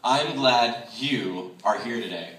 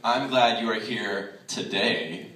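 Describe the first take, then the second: First: "you" stressed and held out in a slow sentence. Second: "today" set apart and drawn out at the end; slow build to a weighted "today"; stress on today. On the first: Speaker reading a line twice to show stress, weight on "you". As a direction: lean on "you", slowly. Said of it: "where I place my stress". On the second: Speaker's second reading to show stress, weight on "today". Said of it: "And the second time". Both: Shown as a demonstration.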